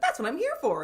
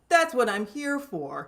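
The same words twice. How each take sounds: First: It is said in a bright, bubbly girlish voice. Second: It is said in a gentle, calm male voice. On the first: "in the fun little default girl voice" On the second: "this voice"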